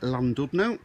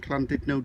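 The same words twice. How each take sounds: First: It is said with an English pronunciation. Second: It is said with a local Welsh pronunciation.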